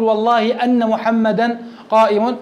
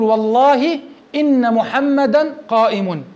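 First: Slow, "أن" said an-na with a fatha; slow, show the error by opening "أن" to an-na; wrong form with أن. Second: Slow, "إن" said in-na with a kasra; slow, careful oath with "إن" kept as in-na; correct form with إن. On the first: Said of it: "هذا لا يجوز". (ببطء مع فتح همزة "أن" خطأً) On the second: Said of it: "فتقول". (ببطء مع كسر همزة "إن") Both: Shown as a demonstration.

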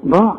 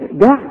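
First: ضاع with a full emphatic ض; correct daad. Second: داع with a thick د in place of ض; wrong dal. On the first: Teacher gives the right ض after the wrong د. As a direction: say ضاع with the proper heavy ض. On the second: Teacher warns students off saying داع. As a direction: show the wrong دال in داع. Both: Shown as a demonstration. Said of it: "ما تقولش داع".

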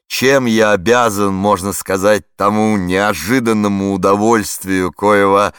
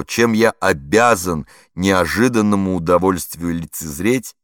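First: Loud, slow, forceful push through the long phrase; storming the phrase. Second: Said in the usual way. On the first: A narrator's reading. Flustered warden to the radio reporter, loud forceful attack. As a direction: charge at the sentence headlong. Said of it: "теперь уже штурмом, осилить громоздкую фразу".

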